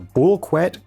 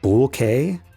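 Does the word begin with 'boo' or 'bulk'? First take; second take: bulk; boo. First: The word begins with a 'bulk' sound. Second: The word begins with a 'boo' sound. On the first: "I'm not saying that right" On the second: "Like a bouquet of flowers?"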